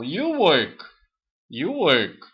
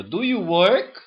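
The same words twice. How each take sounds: First: "you work" loud and deliberate, falling on "work"; affirmative intonation. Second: "Do you work?" loud, pitch lifted on "you work"; question intonation. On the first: Teacher models the affirmative sentence for students, falling statement tune. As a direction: state "you work" firmly, pitch dropping at the end. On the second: Teacher models the question form for students, raised questioning tune. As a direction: ask "Do you work?" clearly, higher and emphatic. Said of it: "É uma question". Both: Shown as a demonstration.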